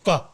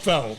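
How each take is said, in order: First: The word is said with a Vietnamese pronunciation. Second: The word is said with an American pronunciation. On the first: This is how it is said in Vietnam. "the right way in Vietnam they call it pho" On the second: This is how people here say it. "But we call it pho"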